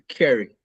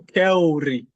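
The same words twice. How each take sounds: First: The vowel sound is very short and quick. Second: The vowel sound is drawn out long. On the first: The speaker calls it right. "it's very quick" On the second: The speaker calls it wrong. "If you say too long, carry, it's weird"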